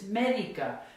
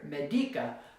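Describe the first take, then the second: First: The stress is on the first syllable. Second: The stress is on the second syllable. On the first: The speaker calls it right. "But that's not how you say it. It's medica" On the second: The speaker calls it wrong. "so the natural stress should be here"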